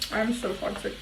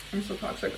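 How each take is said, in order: First: Said in the usual way. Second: Softer, under the breath; mumbled admission. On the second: Real, not acted. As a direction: say it to yourself.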